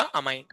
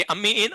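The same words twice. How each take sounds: First: अमाइन low and soft, single m; pronunciation contrast. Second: अम्मी इन slowly, with doubled m; pronunciation contrast. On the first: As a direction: drop down on अमाइन, ending in "ain". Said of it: "इसमें सिर्फ single एम होगा". (अमाइन को एक म से, धीमे स्वर में) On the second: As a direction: separate अम्मी from इन. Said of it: "NH three में डबल एम होगा". (अम्मी इन में डबल म साफ़ बोलना) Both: Shown as a demonstration.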